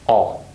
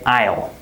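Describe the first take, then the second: First: The contraction is reduced, sounding like 'all'. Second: The contraction is said fully, like 'aisle'. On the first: The speaker calls it right. "we say all" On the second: The speaker calls it wrong. "We don't say I'll"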